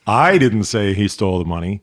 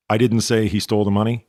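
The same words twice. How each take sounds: First: I stressed, tune rising. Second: DIDN'T lifted with a rising tune; stress on DIDN'T. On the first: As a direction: put weight on I. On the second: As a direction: lean on didn't, question it. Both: Shown as a demonstration. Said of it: "You put em-, emphasis on a different word".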